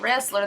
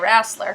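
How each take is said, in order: First: It is said in a plain, non-Southern accent. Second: It is said in an imitated Southern US accent. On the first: "they don't say wrestler" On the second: "that's a very horrible, atrocious southern accent"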